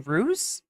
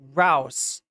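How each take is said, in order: First: The vowel rhymes with news. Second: The vowel rhymes with mouse. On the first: The speaker calls it wrong. "did I say ruse or something?" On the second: The speaker calls it right. "like rhymes with mouse"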